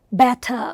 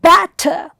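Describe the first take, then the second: First: Bat-TER, stress moved to the second syllable of "batter"; wrong, iambic stress. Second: BAT-ter, stressed first syllable in "batter"; trochaic stress. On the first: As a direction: say "batter" weak first, strong last. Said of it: "iamb was unstressed followed by stressed". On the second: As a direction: hit the start of "batter", let the end fall away. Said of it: "trochee is stressed followed by unstressed". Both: Shown as a demonstration.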